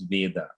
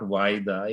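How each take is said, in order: First: The name is pronounced as Veda. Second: The name is pronounced as Vaida. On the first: The speaker calls it right. "it is Veda" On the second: The speaker calls it wrong. "It's not Vaida"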